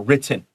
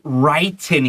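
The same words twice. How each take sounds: First: The first vowel is short, like 'sit'. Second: The first vowel is long, like 'write'. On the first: The speaker calls it right. "It's a short vowel" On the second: The speaker calls it wrong. "don't say written here. That's wrong"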